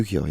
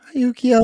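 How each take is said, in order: First: Said in the usual way. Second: High, louder sing-out hello; mimicked cutesy greeting. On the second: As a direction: imitate a cutesy greeting, pitched way up. Mimics film's cutesy greeting line.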